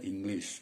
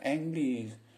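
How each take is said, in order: First: The first vowel is said as 'ih', not 'eh'. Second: The first vowel is said as 'eh', like spelled. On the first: The speaker calls it right. "Tulisannya E tapi baca English" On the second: The speaker calls it wrong. "Jangan dibaca English"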